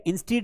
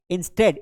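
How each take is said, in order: First: "instead" as in-STEED; long ee in "instead"; wrong pronunciation demo. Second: "Instead" as in-STED; e vowel closing "Instead"; correct pronunciation demo. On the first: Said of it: "instead नहीं पढ़ना है". ("instead" में "ई" की आवाज़) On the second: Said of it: "क्या पढ़ना है?". ("Instead" में "ए" की आवाज़) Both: Shown as a demonstration.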